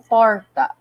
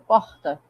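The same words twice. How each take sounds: First: The R is pulled and curled. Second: The R is almost silent.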